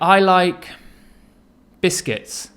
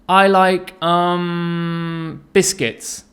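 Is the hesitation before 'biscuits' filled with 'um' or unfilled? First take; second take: unfilled; filled. First: No filler sound comes before 'biscuits'. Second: A filler 'um' comes before 'biscuits'. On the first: The speaker calls it right. "It sounds much better and much more fluent" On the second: The speaker calls it wrong. "instead of saying"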